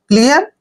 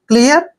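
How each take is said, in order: The two takes are said the same way.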